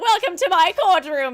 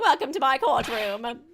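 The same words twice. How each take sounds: First: The voice sounds like a younger man. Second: The voice sounds like an older man. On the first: The speaker calls it wrong. "This judge actually looks like thirty-five or whatever" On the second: The speaker calls it right. "our judge is supposed to be age wise"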